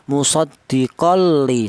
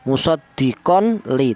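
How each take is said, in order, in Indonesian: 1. Bunyi n langsung menyatu dengan l. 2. Bunyi n dibaca jelas sebelum l. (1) "Cara bacanya musaddiqon li, seperti itu" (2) "Jangan tanwin tadi dibaca idhar atau dibaca jelas ya"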